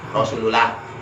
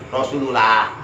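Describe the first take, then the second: First: The 'l' in 'lah' is light and thin. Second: The 'l' in 'lah' is light and thin.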